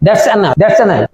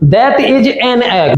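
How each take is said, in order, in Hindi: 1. "That is" छोटा होकर एक सिलेबल बन जाता है, "that's"। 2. "That is" पूरे दो शब्दों की तरह बोला जाता है।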